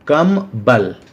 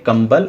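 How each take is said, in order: First: There is a break after 'kam'. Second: The syllables run together without a break. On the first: Little strength. "उसमें कम बल है" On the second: A blanket. "अर्थात blanket"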